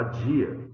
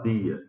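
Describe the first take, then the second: First: "dia" with a j sound, like "jee-a"; d palatalizado. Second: "dia" with a hard d, tongue behind the teeth; d dental. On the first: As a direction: soften the d of "dia" into dj. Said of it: "você fala dia". ("dia" chiado, com som de dj) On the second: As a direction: say "dia" like "dee-a", no j sound. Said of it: "você não fala dia". ("dia" com d seco, sem chiado) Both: Shown as a demonstration.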